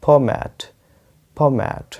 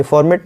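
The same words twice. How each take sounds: First: फॉर्मेट without R, open "mat"; correct pronunciation. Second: फॉर्मेट with a sounded R; wrong pronunciation. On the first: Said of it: "आपको फ बोलना है, उसके बाद मैं". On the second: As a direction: say फॉर्मेट as "for-met", R pronounced. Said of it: "तो ये फॉर्मेट नहीं है". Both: Shown as a demonstration.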